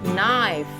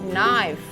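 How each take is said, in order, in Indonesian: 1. Bunyi K di awal tidak dibunyikan. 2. Bunyi K di awal tidak dibunyikan.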